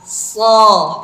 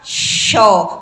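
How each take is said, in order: First: The consonant is a hissing 's' sound. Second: The consonant is a hushing 'sh' sound. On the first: The speaker calls it right. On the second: The speaker calls it wrong.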